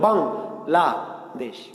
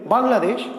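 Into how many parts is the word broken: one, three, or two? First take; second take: three; one. First: The word is split into three separate parts. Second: The word is said in one unbroken go. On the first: The speaker calls it right. "এই যে বাং বললে বাতাস বের হলো" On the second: The speaker calls it wrong. "আমি যদি একবারে বলি"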